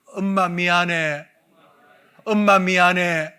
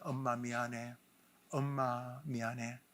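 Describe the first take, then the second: First: Slow, louder apology called out; group shouting sorry to mother. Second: Softer apology. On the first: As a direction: call the apology out slowly and loudly. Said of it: "한번 따라합시다". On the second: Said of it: "이렇게 외치게 합니다". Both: Shown as a demonstration.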